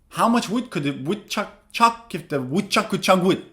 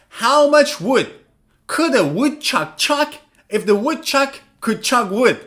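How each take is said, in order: First: It is said quickly, at a fast speed. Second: It is said at a normal, unhurried speed.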